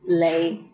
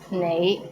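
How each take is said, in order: First: The word begins with an l sound. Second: The word begins with an n sound.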